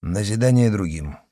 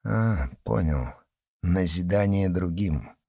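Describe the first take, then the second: First: "Назидание другим" said dry and level; dry and stern. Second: Sarcastic. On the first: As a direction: confirm "Назидание другим" coldly, strictly. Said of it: "сухо и строго подтвердил". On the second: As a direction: sneer it back. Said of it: "язвительно бросил". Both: Acted.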